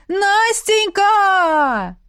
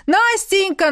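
First: Very slow, drawn-out call, higher and loud; long call. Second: Short loud call, higher; quick call. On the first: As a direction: stretch the name out like a howl. (протяжно и громко) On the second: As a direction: call her name once, quickly. (короткий громкий оклик) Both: A narrator's reading. Ex calling from the street.

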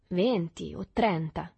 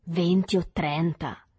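First: Slow, measured boast; mildly self-satisfied, drawn out; reassured, rather vain. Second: Slow, louder repeat; marvelling, drawn-out question; impressed echo. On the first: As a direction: weigh out the number smugly. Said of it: "rassicurato e non poco vano". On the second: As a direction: echo the number loudly, drawing it out. Boy echoes the boast, amazed. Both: A narrator's reading.

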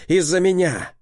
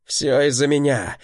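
First: Anguished shout. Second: Self-blaming shout. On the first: Repeats louder and higher. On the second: Dex blames himself, shouting. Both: A narrator's reading.

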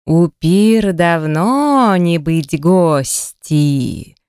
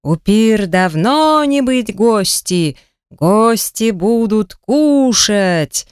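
First: Slow, heavy troll voice; lumbering troll, slow and ponderous; dim troll. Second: Slow, heavy troll bellow; a slow troll roar, lightly pushed. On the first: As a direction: drag out each word like a dim cave troll. Troll speaks broken Russian. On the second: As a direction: drag it out like a hungry brute. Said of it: "взревел тролль". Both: A narrator's reading.

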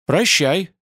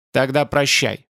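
First: Said in the usual way. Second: Curt farewell with a touch of anger; angry farewell. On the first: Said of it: "сказал и Ютланд". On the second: A narrator's reading. Spider-man dismisses Ютланд, mildly angry. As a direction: say прощай with mild spite. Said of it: "сказал Змеиный глаз зло".

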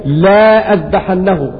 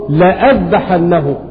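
First: "لا أذبحنه" read slowly with a separate "لا", as the letters are written; reading as spelled. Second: "لأذبحنه" as one word, "la'adhbahannahu", with no separate "la"; correct reading. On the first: Teacher reading the verse as written, slow and spelled out. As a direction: sound out "لا أذبحنه" with the written alif as "la". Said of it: "فهذه الكلمة مكتوبة بألف". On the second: Teacher giving students the correct recitation, plainly. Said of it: "ولكنه تقرأ". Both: Shown as a demonstration.

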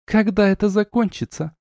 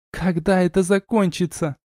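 First: High-pitched exasperated demand; lightly acted hiss. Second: High-pitched, restrained cross question; sister's mild snarl. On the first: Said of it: "прошипела Арна". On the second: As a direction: echo the demand as a cross little sister. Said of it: "оскалилась сестрёнка". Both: A narrator's reading.

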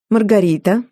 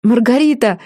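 First: A cool, sour hello of just the name; mother-in-law greeting Маргарита sourly. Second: Calling a name out high and bright; a girl's delighted shout across the tearoom; excited cry. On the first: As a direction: greet her with barely hidden distaste. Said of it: "кисло поприветствовала свекровь". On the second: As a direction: rush over and call her name, thrilled. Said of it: "вскричала Джорджина". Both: A narrator's reading.

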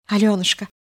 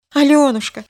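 First: Said in the usual way. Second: Higher, louder repeated name; anguished louder call. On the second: A narrator's reading. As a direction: call her name again, desperate. Calling her louder. (отчаянный зов по имени)

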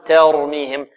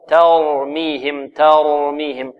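First: "ترميهم" starting "ter", vowel tilted toward e; wrong tilted ta. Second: Slow "ترميهم", thin ت then full ر; light ta, heavy ra. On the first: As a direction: mistaken demo, thin the ta of "ترميهم" too far. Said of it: "لا نقول". («ترميهم» خطأً بتقليل فتحة التاء) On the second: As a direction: draw out "ترميهم" with open ta and emphatic ra. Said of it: "والتاء والراء". («ترميهم» بتاء مرققة وراء مفخمة) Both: Shown as a demonstration.

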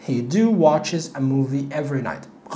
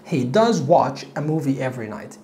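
First: Wrong sentence read very slowly; slow wrong example. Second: Slow correct example. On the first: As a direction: model the mistake slowly. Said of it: "غلط". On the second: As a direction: correct sentence read slowly. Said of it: "فهقول he does". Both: Shown as a demonstration.

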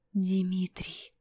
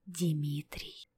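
First: A frightened whispered name; horrified whisper. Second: A fading, much softer whispered name; faint whisper. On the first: Apollinary whispering the prince's name in horror. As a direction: breathe the name out in fear. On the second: Apollinary whispering the name again, fading. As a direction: barely breathe the name out, lower and softer. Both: A narrator's reading. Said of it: "прошептал он в ужасе".

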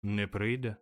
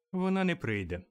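First: Mildly let-down echo; disappointed. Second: Higher voice for the mother; mother announcing. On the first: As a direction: repeat it with a touch of disappointment. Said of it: "розчаровано повторив Боб Кретчет". (трохи розчаровано) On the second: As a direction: announce it as the wife, pitch lifted. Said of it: "сповістила міс Кретчет". (мати сповіщає вищим голосом) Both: A narrator's reading.

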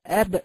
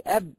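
First: "أب" louder, ba released with a bouncing echo; qalqala on ba. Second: "أب" said flat, ba closed with no echo; "أب" with the ba just stopped; wrong qalqala. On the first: Teacher to students showing the right qalqala: bouncing ba. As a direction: pop the ba in "أب" so it rebounds. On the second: Teacher to students showing the wrong way: a flat ba. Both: Shown as a demonstration. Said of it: "لا ينبغي أن تقولي أب".

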